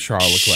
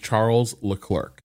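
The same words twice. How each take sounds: First: The name is pronounced the French way. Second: The name is pronounced the English way. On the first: The listeners are French-speaking press. "If he is speaking to French press, he says" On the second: The listeners are English-speaking press. "If he is speaking to English press, he says"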